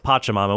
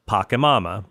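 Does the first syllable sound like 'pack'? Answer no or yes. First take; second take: no; yes. First: The first syllable does not sound like 'pack'. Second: The first syllable sounds like 'pack'. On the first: The speaker calls it right. "It's pronounced Pachamama" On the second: The speaker calls it wrong. "there's Pachelbel's cannon, a pack of pachyderms"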